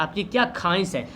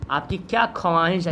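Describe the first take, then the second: First: ख्वाहिश as "khaahish", no "w"; silent w. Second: ख्वाहिश with audible "w", "khawaahish"; wrong reading as written. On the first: Teacher showing normal speech, ख्वाहिश with silent व. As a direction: leave the व unspoken in ख्वाहिश. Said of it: "वाव यहाँ पे silent हो". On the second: Teacher showing how nobody says it, ख्वाहिश with voiced व. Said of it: "ऐसे तो नहीं बोलते हैं". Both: Shown as a demonstration.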